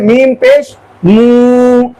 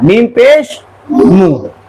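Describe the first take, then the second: First: The final vowel is drawn out long. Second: The final vowel is short and quick. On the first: The speaker calls it wrong. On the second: The speaker calls it right.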